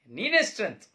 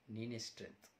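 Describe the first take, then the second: First: Loud and high, ನೀನೇ stressed with a falling tone; shouted admission. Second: Quiet admission. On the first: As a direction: shout ನೀನೇ strength at your father. (ಜೋರಾಗಿ ಕೂಗಿ ಒಪ್ಪಿಕೊಳ್ಳುವ ಮಗ) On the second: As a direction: say it softly, giving in. (ಮೆಲ್ಲಗೆ ಒಪ್ಪಿಕೊಳ್ಳುವ ಮಗ) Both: Acted. Son conceding quietly, then shouting.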